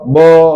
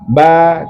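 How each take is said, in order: First: The vowel is a rounded o sound. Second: The vowel is an open a sound. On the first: The speaker calls it wrong. "Bek dah baca fatah" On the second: The speaker calls it right. "Mulut kita harus buka kalau baca fatah"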